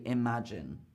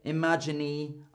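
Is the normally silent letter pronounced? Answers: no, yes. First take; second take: no; yes. First: No extra vowel sound is pronounced at the end. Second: An extra vowel sound is pronounced at the end. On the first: The speaker calls it right. "I say imagine" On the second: The speaker calls it wrong. "I don't say imagine"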